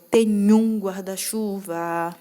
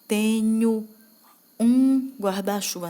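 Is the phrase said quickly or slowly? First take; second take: quickly; slowly. First: It is said quickly, with the words run together. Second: It is said slowly, with the words kept apart. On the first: The speaker calls it right. "com mais ritmo, com uma velocidade um pouco maior" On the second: The speaker calls it wrong. "você não vai falar"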